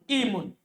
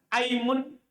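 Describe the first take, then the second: First: The word begins with an i vowel. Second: The word begins with an a vowel. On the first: "Atau di kasroh" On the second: "Di fathah"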